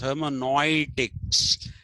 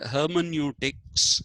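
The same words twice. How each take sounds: First: The word has a German-style pronunciation of 'neu'. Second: The word has the usual English pronunciation.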